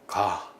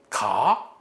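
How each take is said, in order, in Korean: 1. 평서문으로 말합니다. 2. 의문문으로 말합니다. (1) "그냥 일반적인 문서, 문장의 종결, 평사형 종결입니다" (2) "이건 의문이죠"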